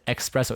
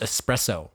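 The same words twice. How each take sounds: First: The first syllable is said with a ks sound. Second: The first syllable is said with a plain s sound. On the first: The speaker calls it wrong. "Where are you getting the X in a" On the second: The speaker calls it right. "It says espresso"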